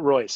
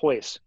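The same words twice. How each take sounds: First: The name begins with an R sound. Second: The name begins with an H sound. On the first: The speaker calls it wrong. "not Royce" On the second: The speaker calls it right. "it's Royce, ... every R is a huh"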